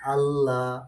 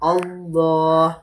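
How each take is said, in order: First: The L is thin, without a full mouth. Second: The L is heavy, with a full mouth. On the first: The speaker calls it wrong. "நோமலா பட்டுச்சுன்னு சொன்னா அல்லாஹ் அல்லாஹ் அப்படி அப்படி இல்லாம" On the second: The speaker calls it right. "வாய் நிறைய உச்சரிப்பாக அழகான முறைக்கு சொல்ல வேண்டும்"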